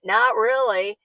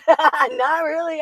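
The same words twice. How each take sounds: First: Said in the usual way. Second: Says it again through a slow laugh. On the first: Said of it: "Not really, laughing repeat". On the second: Real, not acted. To the viewer about not saving for retirement, laughing. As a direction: laugh it out, drawn out slowly. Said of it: "repeat of not really".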